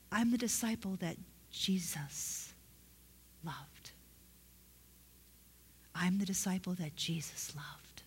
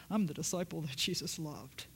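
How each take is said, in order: First: Hushed, halting awe, fading softer; humbly grateful. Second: Lower, softer self-important claim; mock prideful. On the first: Preacher showing how John really said it, humbly grateful. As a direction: pause before the last word, letting it sink in softly. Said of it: "he said it like that because he understood that Jesus loved him". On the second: Preacher showing how John didn't say it, mock prideful. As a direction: say it as if proud of yourself. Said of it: "it wasn't because of pride. He didn't say it". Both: Shown as a demonstration.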